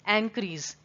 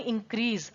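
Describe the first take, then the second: First: The word begins with an 'eh' vowel sound. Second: The word begins with an 'ih' vowel sound. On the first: "वो ए से start होगा" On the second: "आपको पता है वो आई से start होता है"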